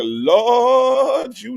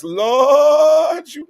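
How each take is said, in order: First: High drawn-out Lord. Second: High, loud, drawn-out Lord with a shake. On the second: Host showing chat how to call the name, loud shaky shout. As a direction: belt "Lord" like a gospel shout, voice shaking. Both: Shown as a demonstration. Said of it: "gotta put a little shake in your voice".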